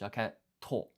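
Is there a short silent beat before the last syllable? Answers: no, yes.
yes. A silent beat comes before a stressed final syllable. The speaker calls it right. "a beat of silence, and then you place extra emphasis on the katakana after it"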